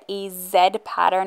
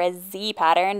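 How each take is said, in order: First: The letter is pronounced zed, British or Canadian style. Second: The letter is pronounced zee, American style.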